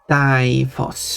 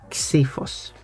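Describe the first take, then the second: First: It is said with the usual English pronunciation. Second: It is said with the Greek pronunciation. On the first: "typically in English is pronounced" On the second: "if you want to be accurate with Greek, you would say"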